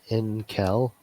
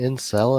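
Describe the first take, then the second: First: The c is said as a k sound. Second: The c is said as an s sound. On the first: The speaker calls it wrong. "not in Kel" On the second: The speaker calls it right. "supposed to be like celibate"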